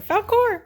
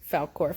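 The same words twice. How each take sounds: First: High, raised call; calling the dog. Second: Said in the usual way. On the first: Real, not acted. Calls the dog a second time.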